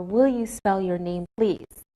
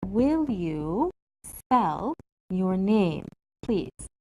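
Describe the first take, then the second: First: Said in the usual way. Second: Very slow, drawn out for learners; slow careful model. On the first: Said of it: "are more polite questions". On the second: Shown as a demonstration. Teacher models a polite request slowly for the class. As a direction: say it slowly so students can follow. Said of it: "change the polite expression like this".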